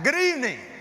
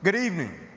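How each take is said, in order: First: It is said loudly, with high energy. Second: It is said calmly, with low energy.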